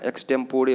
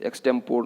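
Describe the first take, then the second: First: एक्सटेम्पोरे ending in a sounded "ray"; एक्सटेम्पोरे with four syllables; correct pronunciation. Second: एक्सटेम्पोर ending on r; एक्सटेम्पोर with no final vowel; wrong pronunciation. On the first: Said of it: "एक्सटेम्पोरे होता है ये". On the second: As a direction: say एक्सटेम्पोर as "ex-tem-pore". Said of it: "नहीं बोलना है इसको". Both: Shown as a demonstration.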